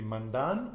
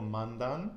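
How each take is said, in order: First: "mandan" stressed on MAN, falling at the end; stress on first syllable. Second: "mandan" wrongly stressed on the final DAN; stress on last syllable. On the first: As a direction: offer "mandan" as MAN-dan. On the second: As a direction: offer "mandan" as man-DAN. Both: Shown as a demonstration. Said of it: "put the stress on the penultimate syllable".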